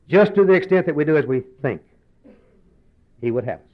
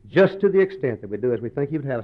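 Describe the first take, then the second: First: It is read slowly. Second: It is read quickly.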